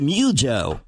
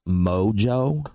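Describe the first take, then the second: First: The first O is said the local way. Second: The first O is said the standard way.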